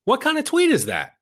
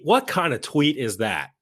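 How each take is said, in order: First: Much higher, exasperated disbelief; incredulous high squeal. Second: Said in the usual way. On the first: Real, not acted. Host mocking a politician's tweet, in a high incredulous squeal. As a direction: shriek the question in disbelief.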